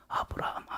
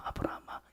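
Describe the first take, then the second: First: Whispered, much softer call; hushed call. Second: Whispered, much softer call again; hushed call. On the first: God gently stopping Abraham, whispered call. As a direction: call his name in a whisper. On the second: God stopping Abraham's hand, whispered call. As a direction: breathe his name out. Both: Acted. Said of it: "하나님이 아브라함한테 뭐라고 그래요".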